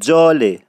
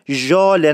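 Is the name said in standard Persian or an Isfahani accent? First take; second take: Isfahani; standard Persian. First: It has the Isfahani j-like sound. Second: It has the standard Persian zh sound.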